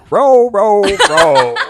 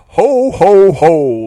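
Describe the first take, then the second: First: It is said in a put-on Korean-style accent. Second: It is said in a plain, ordinary accent.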